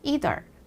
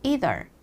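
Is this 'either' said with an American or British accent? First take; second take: American; American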